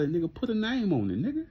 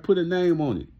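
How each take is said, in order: First: Said in the usual way. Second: Louder, punchier "Put a name on it", with a hard push on "Put"; challenging callout. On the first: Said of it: "I say". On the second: Retold or imitated. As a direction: call him out and dare him to name names. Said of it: "I like".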